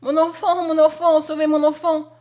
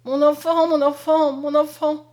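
First: Put-on loud, high, frantic mother crying for her child; desperate cry. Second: Put-on loud, high, anguished calling for her child; a lioness crying for her cub; terrible cry. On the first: Mother screaming at the burning house, loud and desperate. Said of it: "À ses cris". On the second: Mother at the blazing windows, crying out loud. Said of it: "elle n'avait qu'un cri, cri terrible". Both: A narrator's reading.

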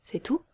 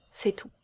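First: Soft, rising question; incredulous. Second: Said in the usual way. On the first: A narrator's reading. Man doubting the kiss was all, incredulous. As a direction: echo it in utter disbelief. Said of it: "d'un ton profondément incrédule".

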